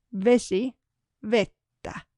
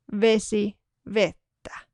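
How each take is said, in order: Both takes have the same delivery.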